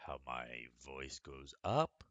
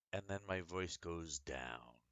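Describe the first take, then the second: First: Rising pitch at the end on up; voice going up. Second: Voice going down. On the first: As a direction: let the voice climb on up. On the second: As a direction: let the voice drop away. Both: Shown as a demonstration. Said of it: "listen on how I read this story".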